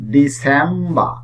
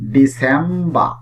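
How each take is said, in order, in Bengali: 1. শেষের r ধ্বনিটি নীরব থাকে। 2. শেষের r ধ্বনিটি নীরব থাকে।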